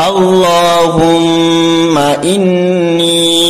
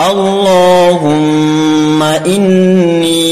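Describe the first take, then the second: No difference in how they are said.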